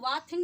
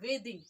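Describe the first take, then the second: First: The first vowel sounds like in 'bath'. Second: The first vowel sounds like in 'bay'. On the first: The speaker calls it wrong. "इसको वाथिंग नहीं बोलेंगे" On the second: The speaker calls it right. "वेदिंग बोलेंगे"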